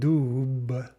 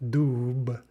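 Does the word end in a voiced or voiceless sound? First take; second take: voiced; voiced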